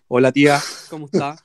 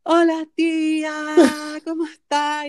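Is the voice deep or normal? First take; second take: deep; normal. First: It is said in a forced deep voice. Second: It is said in a normal, not deep voice.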